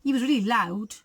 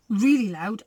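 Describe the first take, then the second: First: Said in the usual way. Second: "really loud" pushed out louder on really; stress on really loud. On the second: Shown as a demonstration. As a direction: lean hard on "really loud". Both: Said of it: "really fierce".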